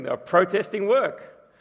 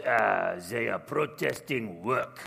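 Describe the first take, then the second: First: Said in the usual way. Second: Low, slow imitation French accent; disdainful French-accented reply, pitched down and unhurried. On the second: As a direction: mimic a Frenchman's drawn-out accented English. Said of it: "kind of French accent".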